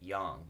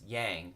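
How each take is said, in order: First: The word is said closer to the Chinese original. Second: The word is said in an anglicized Western way. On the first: The speaker calls it right. "a more accurate pronunciation would be yang" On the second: The speaker calls it wrong. "in the West it's mispronounced as yang"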